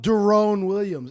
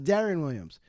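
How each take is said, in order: First: The first name is said as 'Derone'. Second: The first name is said as 'Darren'. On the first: The speaker calls it wrong. "would always call him Derone" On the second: The speaker calls it right. "It's pronounced Darren Williams"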